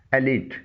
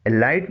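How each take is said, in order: First: ایلیٹ said "e-leet"; long ee in ایلیٹ; correct elite pronunciation. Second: ایلائٹ said "e-light"; wrong elite pronunciation. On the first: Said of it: "اس کی درست pronunciation ہے". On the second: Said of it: "نہیں پڑھا جائے گا". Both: Shown as a demonstration.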